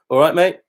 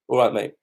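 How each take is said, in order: First: The pitch rises at the end. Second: The pitch falls at the end. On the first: It asks how the other person is. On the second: It answers that everything is fine.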